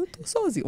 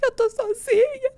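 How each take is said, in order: First: High, soft little whimper; small, high-pitched weepy complaint; mock tearful. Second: Very high, drawn-out sobbing wail; exaggerated full-on crying squeal; mock crying. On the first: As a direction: lightly imitate starting to cry. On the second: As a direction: bawl it slowly like an abandoned child. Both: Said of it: "Comecei a chorar, falei".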